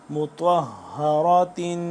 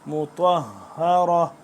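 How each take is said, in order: First: The word ends with a '-tin' sound. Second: The word ends on a short '-ra' sound. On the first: The reader continues without stopping. "ता दो से तीन" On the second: The reader stops at this word. "अगर वक्फ करेंगे तो यहाँ पे क्या हो जाएगा"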